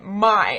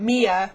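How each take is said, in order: First: The name rhymes with chai. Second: The name sounds like the name Mia. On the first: The speaker calls it right. "as in chai tea latte" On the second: The speaker calls it wrong. "it's not Mia"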